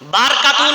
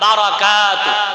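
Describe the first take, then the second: First: The vowel between r and k is dropped. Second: The vowel between r and k is pronounced. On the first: The speaker calls it wrong. "বারকাতু না কিন্তু" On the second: The speaker calls it right. "বারার ওর উপরে জবর"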